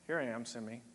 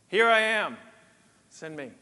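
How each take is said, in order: First: It is said reluctantly and hesitantly. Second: It is said eagerly and enthusiastically.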